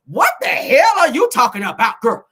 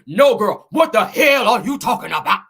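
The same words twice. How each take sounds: First: Loud, higher reading of an angry comment; loud retort read-out. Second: Loud, put-on indignant woman; rival's indignant voice. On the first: Retold or imitated. Reading out a rival's reply before doing her voice, indignant. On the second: Acting a rival's angry comment to a gossip host, indignant. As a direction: blast it out in her voice, every word punched. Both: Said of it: "Let me say it in her voice".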